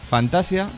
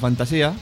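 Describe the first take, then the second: First: The stress falls on the syllable ta. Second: The stress falls on the syllable si. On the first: "sin la tilde" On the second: "Otros que le llamaban Fantasía"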